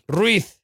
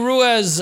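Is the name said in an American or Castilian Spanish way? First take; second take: Castilian Spanish; American. First: The name is said with a Castilian Spanish pronunciation. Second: The name is said with an American pronunciation.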